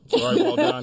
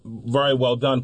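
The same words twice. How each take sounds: First: Laughing. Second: Said in the usual way. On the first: Real, not acted. Teasing partner about the reading.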